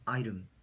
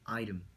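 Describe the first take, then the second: The two takes are said the same way.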